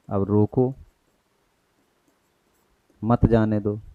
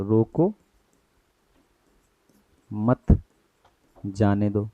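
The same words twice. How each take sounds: First: अब रोको, long break, then मत जाने दो; slow phrase with the break after रोको; pause after रोको. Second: रोको ... मत ... जाने दो, long break after मत, then जाने दो; slow phrase with the break after मत; pause after मत. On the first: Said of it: "ये कॉमा लगा है". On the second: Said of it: "और हम कहते हैं यहाँ पे रोको मत". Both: Shown as a demonstration.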